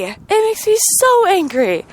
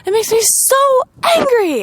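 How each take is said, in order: First: Anger settling down; lingering real anger; still angry, a touch calmer. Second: High, pressed angry cry; fed-up angry outburst; real anger. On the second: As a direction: voice climbing with real frustration. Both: Real, not acted.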